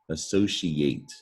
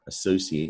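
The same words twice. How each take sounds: First: The middle consonant sounds like 'sh'. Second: The middle consonant sounds like 's'. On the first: "it can also be pronounced she" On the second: "can be pronounced C"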